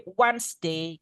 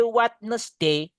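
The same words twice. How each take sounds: First: "Wednesday" as "wansde", no d; correct pronunciation. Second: "Wednesday" slow with the d, "wat-nes-day"; sing-say "Wednesday" the wrong way, slowly; wrong song pronunciation. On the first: Teacher correcting the song version, plain and quick. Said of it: "Gitu yang paling tepat". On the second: Teacher mocking the school song's mistake, slow. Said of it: "Jangan ya. It's wrong". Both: Shown as a demonstration.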